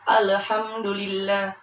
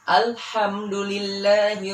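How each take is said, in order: First: The L before h gets a bouncing echo. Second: The L before h is held smoothly. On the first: The speaker calls it wrong. "dikolkolahkan. Itu salah" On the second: The speaker calls it right. "Yang benar adalah"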